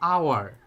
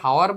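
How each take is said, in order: First: The word begins with a vowel, no h. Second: The word begins with a pronounced h sound. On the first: The speaker calls it right. "এইস এর উচ্চারণ কিন্তু হচ্ছে না" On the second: The speaker calls it wrong. "হাওয়ার হচ্ছে না"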